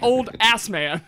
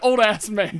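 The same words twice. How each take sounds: First: Ass is joined to man: old ass-man. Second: Ass is joined to old: old-ass man.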